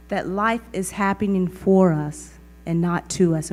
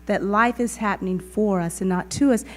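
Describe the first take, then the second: First: "for" pushed hardest in the line; stress on FOR. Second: "to" stressed and held, rising at the end. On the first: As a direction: lean on for, then ease through "not to us". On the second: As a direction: land on to and lift the close. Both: Shown as a demonstration. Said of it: "And we really get to embody that".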